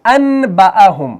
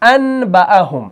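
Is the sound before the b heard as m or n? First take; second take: n; n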